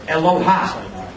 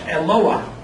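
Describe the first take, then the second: First: The word ends with an open a vowel. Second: The a vowel comes before a final h. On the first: The speaker calls it wrong. "There's no word Eloha" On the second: The speaker calls it right. "It's Eloah"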